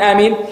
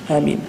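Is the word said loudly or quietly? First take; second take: loudly; quietly. First: The word is said loudly, like a shout. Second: The word is said quietly, in a low voice. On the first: Everyone says it together as a group. The speaker calls it wrong. "Not screaming in a, you know, unanimously, as they say, or in unison" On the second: Each person says it on their own. The speaker calls it right. "You can say Ameen with a low voice"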